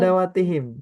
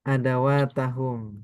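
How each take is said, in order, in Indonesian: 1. Akhirannya dibaca dengan vokal i. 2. Akhirannya dibaca dengan vokal a dan u. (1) "nasabnya dia dengan kasroh adawatihim" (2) "Yang mana yang benar?"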